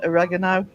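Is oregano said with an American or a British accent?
American. It is said with an American accent. "I'll translate that into American"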